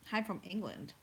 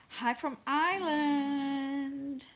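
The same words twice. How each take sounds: First: Said in the usual way. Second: High, drawn-out American-accented greeting. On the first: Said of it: "I don't know why I said it". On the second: Real, not acted. Livestream host greets a viewer from Ireland, American accent. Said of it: "I said it in an American accent".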